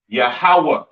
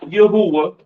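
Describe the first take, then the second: First: The name has no 'u' sound in the middle. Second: The name has a 'u' sound in the middle. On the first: The speaker calls it right. "It is pronounced Yahweh in the Hebrew" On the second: The speaker calls it wrong. "There's no U sound in the Hebrew"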